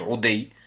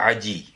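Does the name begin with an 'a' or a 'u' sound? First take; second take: u; a. First: The name begins with a u sound. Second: The name begins with an a sound. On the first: The speaker calls it wrong. "некоторые говорят Удей" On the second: The speaker calls it right. "но правильное, что это Ади"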